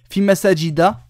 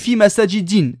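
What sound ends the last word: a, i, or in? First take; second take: a; in. First: The last word ends in a short a. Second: The last word ends in an i plus n. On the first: The speaker calls it right. "c'est bon" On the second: The speaker calls it wrong. "Et si tu me dis fi masajidin, erreur"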